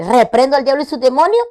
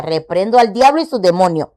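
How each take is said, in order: First: Loud and higher, every word of "Reprendo al diablo" declared; firm rebuke. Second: Said in the usual way. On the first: Retold or imitated. Woman retelling what she told her doctor, a loud firm rebuke. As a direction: rebuke the devil with force. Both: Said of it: "Pero yo le dije".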